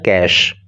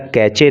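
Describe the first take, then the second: First: The word ends in an 'sh' sound. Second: The word ends in a 'chay' sound. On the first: The speaker calls it right. "बल्कि इसका pronunciation होता है कैश" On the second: The speaker calls it wrong. "कैच या कैचे नहीं है"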